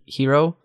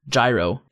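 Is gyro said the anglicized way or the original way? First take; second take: original; anglicized. First: The word is said with its original pronunciation. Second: The word is said with an anglicized pronunciation. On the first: This is the actual pronunciation of the word. "it's actually how you pronounce the G-Y-R-O" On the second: This is the habitual everyday pronunciation. "I'd still just say Gyro"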